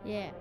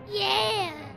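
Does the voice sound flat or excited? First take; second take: flat; excited. First: It sounds flat and unenthusiastic. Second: It sounds lively and excited.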